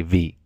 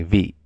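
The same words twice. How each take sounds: First: "V" said with its Vietnamese tone. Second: "V" said with a creaky Hmong tone. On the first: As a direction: give "V" the Vietnamese tone. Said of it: "And then in Vietnamese, they say V". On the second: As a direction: creak through "V" like the Hmong mark. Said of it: "This is a creaky tone in, uh, Hmong". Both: Shown as a demonstration.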